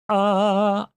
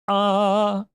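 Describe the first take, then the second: First: The vowel starts with a glottal catch. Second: The same.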